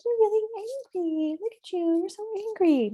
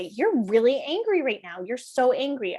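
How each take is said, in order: First: High, singsong mock sympathy; sugary baby-talk. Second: Firm, emphatic stress on "really" and "so"; matched intensity. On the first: Parent to a furious child, wrongly high and cutesy. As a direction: coo it in a high-pitched voice, mismatched to anger. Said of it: "we're not gonna come and be like". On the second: Parent validating a furious child, intense emphasis on "really" and "so". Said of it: "we're gonna match the intensity". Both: Shown as a demonstration.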